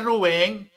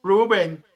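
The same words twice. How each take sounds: First: "Rubén" with the stress on the final syllable; correct Spanish Rubén. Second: "Rubén" mockingly said as ROO-ben; higher, louder gringo "Rubén", stressed on the first syllable; Americanized Rubén. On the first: Shown as a demonstration. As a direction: say "Rubén" as roo-BEN, higher and insistent. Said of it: "Pronúncielo bien". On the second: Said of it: "No venga a decirme Rubén".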